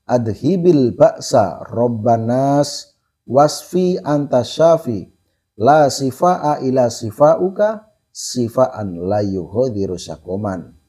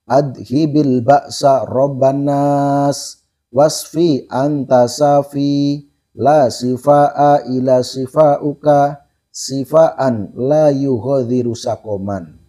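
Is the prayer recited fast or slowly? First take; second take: fast; slowly. First: It is recited at a fast pace. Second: It is recited at a slow pace. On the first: "Kira-kira terlalu cepat apa enggak?" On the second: "Coba saya pelankan lagi ya"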